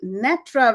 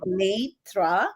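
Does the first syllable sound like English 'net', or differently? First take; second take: like net; differently. First: The first syllable sounds like the English word 'net'. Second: The first syllable does not sound like 'net'. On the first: It sounds linked to the web or the net. The speaker calls it wrong. "I didn't want this to be Netra, where peop people would think, oh, this has got something to do with the web or the net" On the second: People take time to pronounce it. The speaker calls it right. "inserted a Y so that it's like Netra"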